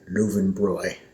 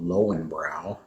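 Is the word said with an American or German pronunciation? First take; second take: German; American. First: It has a 'v' sound and ends in 'oy'. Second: It has a 'w' sound and ends in 'ow'. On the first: The speaker calls it right. "in German they would say" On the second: The speaker calls it wrong. "Americans don't pronounce correctly"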